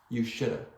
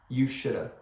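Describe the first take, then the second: First: The words blur quickly into one word. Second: The same.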